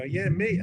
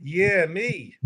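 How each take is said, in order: First: Eager volunteer, retold. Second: Eager volunteer. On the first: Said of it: "And I go". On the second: Retold or imitated. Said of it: "I was supposed to go".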